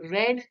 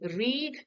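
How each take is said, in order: First: The vowel is short, like 'red'. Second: The vowel is long, like 'reed'. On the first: It is the past tense. "इसको हम pronounce करेंगे रेड" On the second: It is the present tense.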